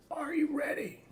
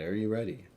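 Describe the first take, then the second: First: Very high squeaky put-on voice; high-pitched, goofy echo of the question; silly falsetto. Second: Said in the usual way. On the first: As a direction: leap into a playful falsetto.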